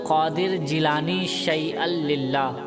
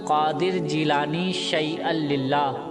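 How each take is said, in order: No difference in how they are said.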